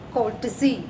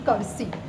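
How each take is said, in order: First: It is said like 'kortsi', with the t. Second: It is said like 'kursi', without the t. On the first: The speaker calls it right. "इसका सही pronounce है कोर्टसी" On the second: The speaker calls it wrong. "इसको pronounce करते हैं कर्सी"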